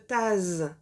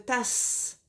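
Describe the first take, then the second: First: The middle consonant is a buzzing z sound. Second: The middle consonant is a hissing s sound. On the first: The speaker calls it wrong. "Si je ne mettais qu'un seul S, ... on dirait une tase" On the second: The speaker calls it right. "je veux une tasse"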